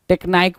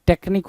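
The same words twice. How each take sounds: First: टेक्नाइक said tek-naik with a long ai sound; mispronounced technique. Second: टेक्निक said tek-neek with a short ee sound; correct pronunciation. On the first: Teacher imitates the student's misread tek-naik. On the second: Teacher corrects the word to tek-neek. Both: Shown as a demonstration. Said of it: "टेक्निक होता है".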